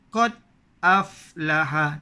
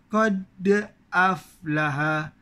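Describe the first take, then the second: First: The d in qad stops cleanly, no bounce. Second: The d in qad has a light bounce. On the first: The speaker calls it wrong. "Tak ada berlantun" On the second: The speaker calls it right. "Yang betulnya ada lantunan"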